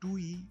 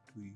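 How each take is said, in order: First: It is said at a normal, relaxed pace. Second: It is said very fast and run together.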